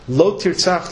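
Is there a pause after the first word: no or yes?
no. The two words run together without a pause. Killing is forbidden. "then the word Lo clearly connects to the word Tirtzach"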